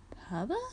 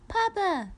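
First: Puzzled rising question. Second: Put-on very high, louder toddler call; high falling child's cry; excited baby squeal. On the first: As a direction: echo the word in confusion. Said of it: "Jenny seemed puzzled". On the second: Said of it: "Stevie s-, repeated, excited". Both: A narrator's reading.

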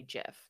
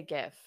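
First: Gif said as "jif"; soft G. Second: Gif with G as in gift; hard G. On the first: Citing the technical version disliked, gif with J sound. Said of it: "it was supposed to be". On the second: Agreeing with co-host's preference, gif with hard G. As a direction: start gif with a hard "guh". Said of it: "Yeah, I say gif". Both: Shown as a demonstration.

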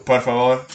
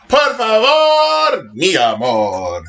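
First: Said in the usual way. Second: Mock-romantic Spanish pleading; hammed-up plea. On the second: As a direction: croon it slowly, theatrically begging.

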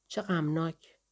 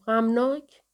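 First: Soft, understated sorrow; a touch of sadness, kept small; subdued comment. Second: Higher, rising incredulous question; lightly scoffing, pitched up at the end; amused echo. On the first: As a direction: murmur it softly as a quiet statement. Narrator's subdued reply, then echoed. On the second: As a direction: throw the word back as a question. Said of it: "بیبرس خندید و گفت". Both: A narrator's reading.

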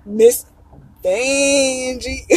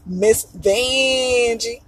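First: Imitating Vanjie's exit, stretching Vanjie; Vanjie exit line. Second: Drawn-out name. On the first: Vlogger quoting a favourite queen's famous exit, mock drag drawl. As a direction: say it like the drag queen backing offstage. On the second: Shown as a demonstration. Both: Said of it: "but Vanjie".

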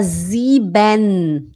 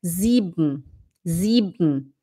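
First: "sieben" with a drawn-out, full "benn"; full -ben ending. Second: "sieben" lower, as "zeeb-m" with no final e; swallowed ending. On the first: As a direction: overpronounce the e in "sieben". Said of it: "O alemão não fala". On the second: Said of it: "parece que você vai engolir". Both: Shown as a demonstration.

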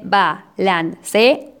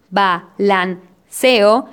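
First: "balanceo" in four slow syllables, ba-lan-ce-o; hiatus syllables. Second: "balanceo" in three slow syllables, ba-lan-ceo; syneresis syllables. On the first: Teacher showing the usual count, "balanceo" split as ba-lan-ce-o. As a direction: break the final e and o of "balanceo" apart. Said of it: "en vez de". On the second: Teacher showing the licence, "balanceo" split as ba-lan-ceo. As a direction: join the final vowels of "balanceo" in one syllable. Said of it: "con esta licencia, el conteo sería". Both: Shown as a demonstration.

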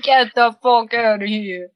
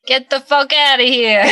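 First: New York accent. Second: Thick New York accent, louder; a punchy New York "Get the fuck outta here". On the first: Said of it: "That's the one, right?". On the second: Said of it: "favorite phrase in a New York accent". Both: Shown as a demonstration.

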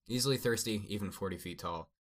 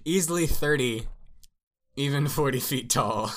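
First: Said in the usual way. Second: Loud, high, incredulous reread; raised pitch, barely holding back laughter; amused mock reread. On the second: Shown as a demonstration. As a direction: read it back as if it's absurd, cracking up. Rereads the nonsensical line, amused.

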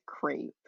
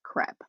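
First: Crepe said to rhyme with grape; American pronunciation. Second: Crepe said to rhyme with step; French-style pronunciation. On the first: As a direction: say crepe with a long "ay" vowel. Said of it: "Americans pronounce it crepe". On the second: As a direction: say crepe with a short open "eh". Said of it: "pronounce it to rhyme with step". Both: Shown as a demonstration.

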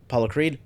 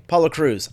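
First: "Creed?" asked with a rising, doubtful tune, softer; trailing unsure "Apollo Creed?"; wrong name, questioned. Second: "Apollo" stressed, "Crews" falling firm; settled correction "Apollo Crews."; corrected name. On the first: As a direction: catch the slip and ask "Apollo Creed?" softly. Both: Shown as a demonstration.

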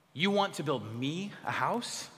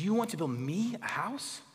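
First: Slow, stress on want rising at the end; slow emphatic want, rising house; emphatic question. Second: A touch of a condescending God, want rising; mildly scornful question to a king. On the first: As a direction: lean hard on want, incredulous. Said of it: "It's emphatic there". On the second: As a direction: talk down to David, unimpressed. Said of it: "the emphasis of God condescending to David". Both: Shown as a demonstration.

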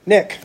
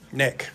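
First: Calling Nick. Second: Tender Nick. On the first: Jesus addresses Nicodemus, calling his name. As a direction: call out "Nick" firmly. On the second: Jesus speaks to Nicodemus's heart, soft tender name. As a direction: say "Nick" softly, close. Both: Retold or imitated. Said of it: "I'll paraphrase here".

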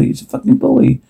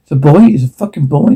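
First: Overjoyed disbelief. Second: Said in the usual way. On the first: Real, not acted. Expectant father hearing it's a boy, overjoyed. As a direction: pitch jumps way up on the repeat. Learning he'll have a son.

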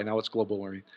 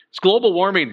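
First: Global warming dropped softer and lower, dry; deadpan aside. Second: Announcing global warming, louder and higher; mock alarm. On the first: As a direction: mutter it with dry sarcasm. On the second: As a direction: say it like a scary headline. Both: Shown as a demonstration. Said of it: "We used to call it July".

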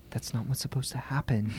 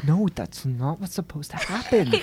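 First: Hushed urgent whisper; breathless whispered warning; retold whisper. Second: Said in the usual way. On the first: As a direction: whisper it so nobody else hears. Emily hissing a warning at sister.

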